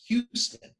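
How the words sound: It is said the out-of-town way. This is how visitors say the street name. "from out of town would pronounce"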